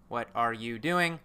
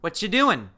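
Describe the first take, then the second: First: Every word is said fully and slowly. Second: The words run together fast and short.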